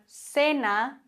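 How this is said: The c is pronounced like an s.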